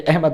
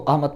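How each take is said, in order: First: The word is pronounced the Urdu way. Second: The word is pronounced the Arabic way. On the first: The speaker calls it wrong. "अहमद नहीं पढ़ेंगे, वरना गलत है" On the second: The speaker calls it right. "सो इस वजह से हम इस लफ्ज़ को अहमद पढ़ेंगे"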